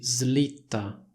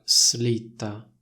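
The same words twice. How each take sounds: First: The s is voiced, like a z sound. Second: The s is voiceless, separate from the l. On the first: The speaker calls it right. "Questa parola si pronuncia così" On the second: The speaker calls it wrong. "non si pronuncia slitta"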